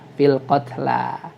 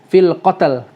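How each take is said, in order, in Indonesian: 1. Kata terakhir berakhir pada vokal panjang. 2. Kata terakhir berakhir pada konsonan saja. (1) "Lamnya dua, dua harakat" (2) "seolah-olah lamnya disukun"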